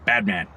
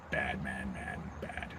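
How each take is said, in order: First: Said in the usual way. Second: Dropped to a near whisper; bad man, said almost to yourself; hushed repeat. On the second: Real, not acted. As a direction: mutter it under your breath, much softer.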